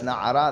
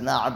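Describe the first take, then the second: First: Na'ara said in full, three syllables; na'ara as it is read aloud; read form. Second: Na'a said short, two syllables, cut off; na'a as the text writes it; written form. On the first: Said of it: "supposed to read it as". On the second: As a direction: clip it to na'a as spelled. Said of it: "it's written as". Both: Shown as a demonstration.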